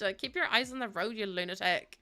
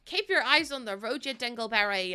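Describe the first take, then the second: First: Said in the usual way. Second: Playful exasperated driver; mock scolding. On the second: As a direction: scold the passenger in jest. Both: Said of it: "You're supposed to be driving".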